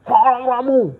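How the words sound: It is said harshly and loudly.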